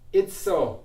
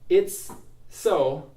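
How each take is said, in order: First: The two S sounds merge into one S. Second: There is a stop between the two S sounds. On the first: The speaker calls it right. "Just one S sound" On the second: The speaker calls it wrong. "where I stop between the S's"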